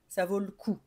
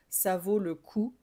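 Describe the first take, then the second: First: The vowel in 'le' is dropped. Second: The vowel in 'le' is fully pronounced. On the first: "on a tendance à ne pas trop euh, le prononcer" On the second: "tu peux totalement dire, c'est même plus joli"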